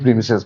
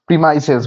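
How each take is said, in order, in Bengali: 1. দ্বিতীয় সিলেবলে ছোট 'i' স্বরধ্বনি আছে। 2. দ্বিতীয় সিলেবলে 'eye' স্বরধ্বনি আছে। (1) "আমি প্রিমিসেস বললাম" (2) "প্রিমাইসেস বলে ওরা, ভালো উচ্চারণ করে"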